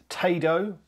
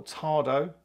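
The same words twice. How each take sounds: First: "Tado" said TAY-doh, long A; pronounced TAY-do. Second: "Tado" said TAH-doh, open A; pronounced TAR-do. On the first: Vlogger unsure of brand name, "Tado" as TAY-doh. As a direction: say "Tado" with an "ay" as in day. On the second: Vlogger offers other pronunciation, "Tado" as TAR-doh. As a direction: say "Tado" with an "ah" as in car. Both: Shown as a demonstration. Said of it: "get the correct pronunciation".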